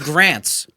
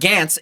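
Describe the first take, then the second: First: The r sound after the g is clearly pronounced. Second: The r sound after the g is dropped. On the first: The speaker calls it right. "It's Grants. ... G R, bro" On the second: The speaker calls it wrong. "it's not Gants"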